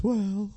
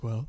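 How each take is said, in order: First: High, goofy puppet voice; goofy muffled sock puppet. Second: Said in the usual way. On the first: Shown as a demonstration. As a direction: do the ventriloquist dummy. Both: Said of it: "that's his voice".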